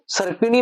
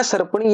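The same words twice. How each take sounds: First: सर्पिणी with a short i after p; correct pronunciation. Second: सर्पणी with no i after p; mistaken pronunciation. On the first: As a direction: sound the "pi" in सर्पिणी. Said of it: "सर्प में सर्पिणी बनेगा". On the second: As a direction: drop the middle i, सर्पणी. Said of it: "ये शब्द है वो गलत है". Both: Shown as a demonstration.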